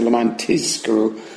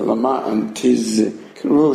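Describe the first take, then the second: First: The second word has an s sound. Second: The second word has a clear, stressed z sound. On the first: You do it only to get paid. The speaker calls it wrong. "so it shouldn't say" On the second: You should remember. The speaker calls it right. "you got to really stress the"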